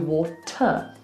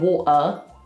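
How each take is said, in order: First: The middle T is clearly pronounced. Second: A glottal stop replaces the middle T. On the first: "it's just different to water" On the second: "We are saying water"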